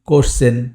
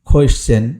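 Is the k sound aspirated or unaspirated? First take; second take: unaspirated; aspirated. First: The first sound is an unaspirated k. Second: The first sound is an aspirated k. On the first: The speaker calls it wrong. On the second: The speaker calls it right.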